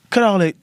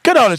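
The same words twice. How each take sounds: First: It is said in his own normal voice. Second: It is said in an imitated, put-on voice.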